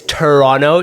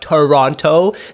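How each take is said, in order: First: The second T sound is dropped. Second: The second T sound is clearly pronounced. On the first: The speaker is a local. The speaker calls it right. "It's Toronto, T U R R O N O" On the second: The speaker is a tourist. The speaker calls it wrong. "not Toronto. The second T is silent"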